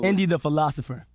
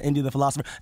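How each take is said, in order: First: It is said slowly. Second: It is said fast.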